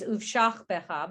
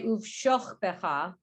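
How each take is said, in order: First: The vowel in the second syllable sounds like 'ah'. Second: The vowel in the second syllable sounds like 'oh'. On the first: This is the usual reading of the word. "Usually it's" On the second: This is an unusual reading of the word. "I've never heard anybody say"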